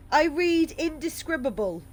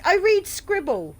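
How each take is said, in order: First: "indescribable" said out in full, each syllable clear; careful full "indescribable"; correct reading. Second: "scribble" read out instead of "indescribable", the word cut short; misread word. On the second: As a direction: say "scribble" as a quick stumbling misread. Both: Real, not acted.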